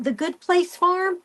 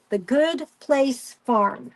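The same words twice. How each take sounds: First: Rising, higher, unsure of the name; asking herself if she has the name right; unsure question. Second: Slow, settled, falling; slow confirmation. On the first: Trying to recall a farm name, unsure rising question. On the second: Telling viewers the farm name, slow and firm. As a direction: spell the name out slowly for viewers. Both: Real, not acted. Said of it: "I think it's called The Good Place Farm".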